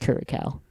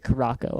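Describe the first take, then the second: First: It is pronounced like curacao. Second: It is pronounced like caraco. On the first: This is the pronunciation others say is correct. The speaker calls it right. "apparently it's Curacao" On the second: This is the speaker's habitual pronunciation. The speaker calls it wrong. "I pronounce it Caraco"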